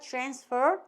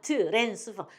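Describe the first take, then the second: First: The sounds run together quickly without added vowels. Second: Every syllable is said fully with added vowels. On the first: The speaker calls it right. "요거가 마치 없는 듯이 빨리빨리 넘어가야 돼요" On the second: The speaker calls it wrong. "트랜스퍼 이렇게 외우시면 안 돼"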